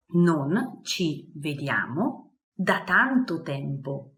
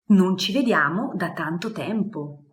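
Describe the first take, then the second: First: Slow, clear repeat for learners; slow model phrase. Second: Said in the usual way. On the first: Shown as a demonstration. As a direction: say it slowly so they catch each syllable.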